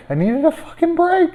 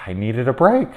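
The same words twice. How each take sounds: First: Much higher, whining plea; high pleading whine. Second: Said in the usual way. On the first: Real, not acted. Mother begging for a break, high whine. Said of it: "repeated pleading in a high voice". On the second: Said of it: "plea, then repeated louder".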